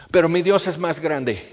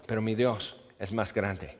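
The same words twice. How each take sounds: First: Said in the usual way. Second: Soft echo. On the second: Shown as a demonstration. Preacher echoes his own line, soft and low. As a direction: repeat it low and much softer.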